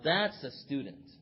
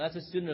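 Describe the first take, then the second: First: It is said in an impressed, admiring tone. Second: It is said in a plain, matter-of-fact tone. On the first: The person takes their studies seriously. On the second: The person is simply one of the teacher's students.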